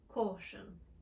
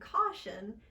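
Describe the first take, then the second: First: It has a rounded British aw vowel. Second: It has an open American ah vowel.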